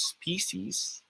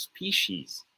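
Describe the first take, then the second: First: Species said SPEE-seez; plain s sound in the middle of species; first option. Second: Species said SPEE-sheez; sh sound in the middle of species; second option. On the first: Tutor offers smiley face option, s-sound pronunciation. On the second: Tutor offers wink face option, sh-sound pronunciation. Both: Shown as a demonstration. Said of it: "if it is pronounced as".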